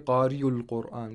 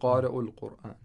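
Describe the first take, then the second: First: The sound after qari is said as a y. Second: The sound after qari is a clear glottal stop. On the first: The speaker calls it wrong. "we don't say qari'ul Qur'an" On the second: The speaker calls it right. "we say qari'ul Qur'an. So we have to act as if these three letters were hamzas"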